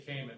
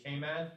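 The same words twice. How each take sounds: First: Cayman as KAY-mun, weak second syllable; common mispronunciation. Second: Cayman as KAY-MAN, full second syllable; both syllables of Cayman given full weight; local pronunciation. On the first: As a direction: reduce the end of Cayman to "mun". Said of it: "they don't say Cayman". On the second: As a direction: say Cayman with a clear "man" at the end. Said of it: "They actually say Cayman". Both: Shown as a demonstration.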